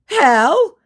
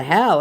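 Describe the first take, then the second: First: High, loud nervous yelp; mock nervous. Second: Said in the usual way. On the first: Impostor asked for a Korean accent, mock nervous. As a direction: act out his rattled question. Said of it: "getting very nervous".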